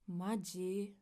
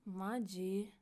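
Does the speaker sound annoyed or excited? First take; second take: annoyed; annoyed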